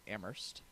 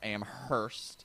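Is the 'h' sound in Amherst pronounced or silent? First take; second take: silent; pronounced. First: The h sound in the middle is silent. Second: The h sound in the middle is pronounced. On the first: The speaker calls it right. "You don't pronounce the Hurst" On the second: The speaker calls it wrong. "if you're uh, weird"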